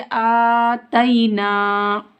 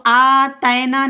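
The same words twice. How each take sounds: First: आतैना chanted slowly with a clear "tay-ee" glide; maroof pronunciation. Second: आतैना with a loose "ae" vowel; majhool mispronunciation. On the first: Teacher modelling Quran reading, maroof vowels in slow आतैना. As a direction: draw out आतैना, long first and last vowels. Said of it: "क्या पढ़ेंगे?". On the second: Teacher showing pupils what to avoid, majhool vowel in आतैना. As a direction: say आतैना quicker, with "tae" for "tay". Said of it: "आतैना नहीं पढ़ेंगे". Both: Shown as a demonstration.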